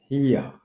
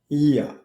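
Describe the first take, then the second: The two takes are said the same way.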